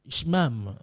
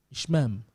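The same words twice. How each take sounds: Both takes have the same delivery.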